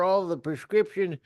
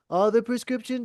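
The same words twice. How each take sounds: First: It is said in the speaker's natural voice. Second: It is said in an impersonated, put-on voice.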